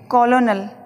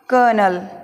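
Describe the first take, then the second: First: It is said with three syllables, ko-lo-nel. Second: It is said with two syllables, ker-nel. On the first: The speaker calls it wrong. "Meaning को देखते हुए कॉलोनल लग रहा है" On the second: The speaker calls it right. "लेकिन इसका उच्चारण होगा कर्नल"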